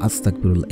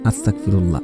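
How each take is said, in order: First: The sounds of the word are slurred together. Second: The sounds of the word are slurred together.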